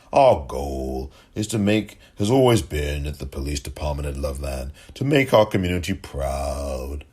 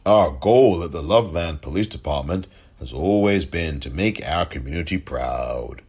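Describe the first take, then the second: First: Mocking. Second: Said in the usual way. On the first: Mocking repeat of statement.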